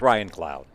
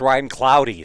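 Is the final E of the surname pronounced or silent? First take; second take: silent; pronounced. First: The surname ends without a pronounced extra vowel. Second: The surname ends with a pronounced extra vowel. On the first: The speaker calls it right. "the E is silent" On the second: The speaker calls it wrong. "Maybe it's Ryan Cloudy"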